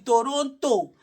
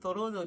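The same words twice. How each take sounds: First: The second t is clearly pronounced. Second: The second t is dropped. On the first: This is how the speaker personally says it. "Me, I pronounce the T" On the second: This is how people there say it. "they call it"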